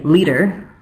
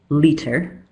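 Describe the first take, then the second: First: It is pronounced in a relaxed, natural way. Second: It is pronounced carefully and precisely. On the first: "that's my natural accent" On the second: "that's very careful speech in my native accent"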